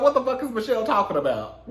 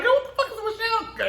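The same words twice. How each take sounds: First: Said in the usual way. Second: Shocked. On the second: Retold or imitated. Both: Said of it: "I was like".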